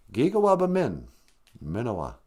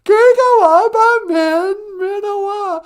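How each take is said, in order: First: Said in the usual way. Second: Very high, loud, stretched-out character voice; squeaky pupil repeating. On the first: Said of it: "Can I teach you one more phrase". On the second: Acted. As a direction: parrot the phrase slowly in a piercing puppet squeal. Sidekick repeats the taught phrase.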